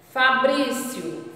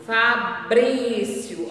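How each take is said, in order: First: "Fabrício" slow, stressed BRÍ; open í demo. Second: "Fabrício" very slow, stressed BRÍ; open í demo. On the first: Teacher modelling a name for pupils, slow. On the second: Teacher repeating the name, very slow. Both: Shown as a demonstration. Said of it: "como o som já vai aberto".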